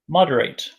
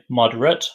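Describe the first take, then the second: First: It is pronounced as the verb form. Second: It is pronounced as the adjective form. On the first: It describes the action of reducing. "the verb moderate" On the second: It describes an average amount. "The adjective moderate"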